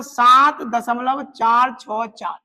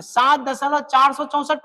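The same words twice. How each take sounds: First: "सात दशमलव चार छः चार" with each digit after the point said on its own; "सात दशमलव चार छः चार" read like a teacher showing the right way, one digit at a time; digits read singly. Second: "सात दशमलव चार सौ चौसठ" read with the part after the point as one whole number; "सात दशमलव चार सौ चौसठ" read as one number, shown as the mistake; wrong reading. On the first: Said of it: "दशमलव के बाद अंकों को सिंगल सिंगल, अकेले अकेले बोलना है". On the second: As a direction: say "चार सौ चौसठ" as four hundred sixty-four, the wrong way. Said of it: "पढ़ेंगे तो गलत हो जाएगा".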